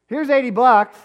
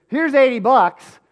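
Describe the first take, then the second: First: A father laying down the law; angry confrontation. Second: Loud, high, slow, demanding; a father laying down the law; angry confrontation. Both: Retold or imitated. Dad confronting carnies over his son's unpaid wages, angry.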